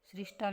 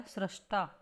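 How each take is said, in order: First: सृष्टा said as "srishta"; "ri" after s in सृष्टा; wrong pronunciation. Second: सृष्टा said as "srashta"; "ra" after s in सृष्टा; correct pronunciation. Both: Shown as a demonstration. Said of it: "सृष्टा नहीं".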